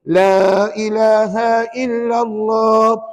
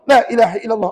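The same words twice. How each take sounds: First: It is said calmly and carefully. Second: It is said hurriedly and rushed.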